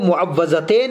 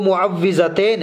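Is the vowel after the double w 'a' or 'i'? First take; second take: a; i. First: The vowel after the double w is 'a'. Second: The vowel after the double w is 'i'. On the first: The speaker calls it wrong. "लोग इसको मुअव्वज़तैन भी पढ़ते हैं" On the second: The speaker calls it right. "सही जो लफ्ज़ है वो मुअव्विज़तैन है"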